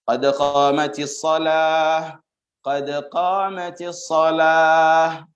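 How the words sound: The first phrase ends in a stop before repeating. "Itu kalau dibaca putus"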